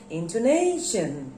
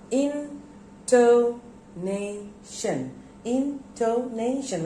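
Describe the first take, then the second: First: Said in the usual way. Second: INTONATION slowly chopped into four separate syllables. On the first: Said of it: "When I say intonation". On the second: Shown as a demonstration. Teacher breaking a word down for pupils, spaced out. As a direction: pause after each syllable of INTONATION. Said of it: "there are four syllables".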